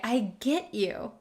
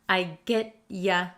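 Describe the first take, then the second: First: The last word is said fully as 'you'. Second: The last word is shortened to 'ya'. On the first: "So if I say" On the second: "you often gets shortened to ya"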